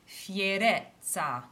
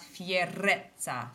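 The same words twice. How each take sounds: First: The R is a single quick flip. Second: The R is a strong rolled trill. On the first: The speaker calls it right. "Make sure you flip the R between two vowels" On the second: The speaker calls it wrong. "not fierezza"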